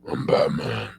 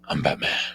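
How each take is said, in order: First: It is said in a plain, ordinary voice. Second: It is said in a deep, put-on voice. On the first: The speaker calls it wrong. "That's not my Batman voice" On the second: The speaker calls it right. "I can do deep voices like I'm Batman. ... like that"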